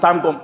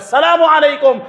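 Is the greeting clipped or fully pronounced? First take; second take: clipped; full. First: The greeting is clipped to a short slurred form. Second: The greeting is pronounced in full, every syllable clear. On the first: It wishes a curse on the listener. The speaker calls it wrong. "এই সামকুম মানে হলো গজব নাজিল হোক।" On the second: It wishes peace on the listener. The speaker calls it right. "Exact accurate pronunciation maintain করে সালাম দিতে হবে"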